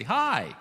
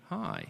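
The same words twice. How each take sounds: First: Hi, louder and higher; enthusiastic hi. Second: A cooler, more guarded Hi. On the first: Preacher demos greeting Michael, eager and loud. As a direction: greet Michael like you're delighted to see him. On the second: Preacher demos the same greeting to Michael, cool and reserved. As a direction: say Hi as if you'd rather not. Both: Shown as a demonstration. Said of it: "that's different from me going".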